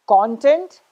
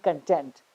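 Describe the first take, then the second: First: CONtent, stressed on the first syllable. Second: ConTENT, stressed on the second syllable. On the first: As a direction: say "content" as the noun, punching "con". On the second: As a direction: say "content" as the verb, weight on "tent". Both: Shown as a demonstration. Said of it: "both pronunciations".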